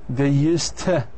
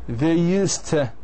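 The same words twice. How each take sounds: Both takes have the same delivery.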